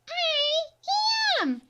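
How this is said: The letters are said in a babyish voice. "Let's try our baby voice"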